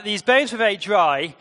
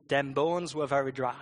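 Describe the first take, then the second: First: Said in the usual way. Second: Put-on Jamaican accent. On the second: Shown as a demonstration. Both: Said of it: "best read in a Jamaican accent".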